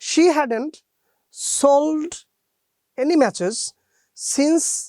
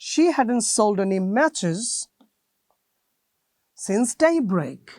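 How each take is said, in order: First: Pauses break the sentence apart after single words. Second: Pauses fall only between the natural word groups. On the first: The speaker calls it wrong. "আপনি এরকম বলতে পারেন না" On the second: The speaker calls it right. "এটাকে বলে natural pauses."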